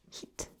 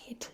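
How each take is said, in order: First: "Heat" for head, said "heid" with a long ee; Glaswegian head. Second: Said in the usual way. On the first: Shown as a demonstration. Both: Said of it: "Rather than head".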